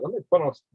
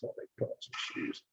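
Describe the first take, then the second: First: Said in the usual way. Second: Unvoiced under-the-breath whisper. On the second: Real, not acted. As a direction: whisper it to yourself. Repeats line, voice drops.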